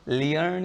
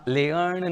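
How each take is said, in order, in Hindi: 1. स्वर 'ee' glide से शुरू होता है। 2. स्वर 'eh' ग्लाइड से शुरू होता है। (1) "लियर्न या लेयर्न नहीं" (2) "लियर्न या लेयर्न नहीं"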